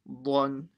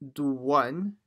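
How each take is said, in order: First: No w sound follows the first consonant. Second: A w sound follows the first consonant. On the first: The speaker calls it right. "it's blon" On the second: The speaker calls it wrong. "it's not do one with the w"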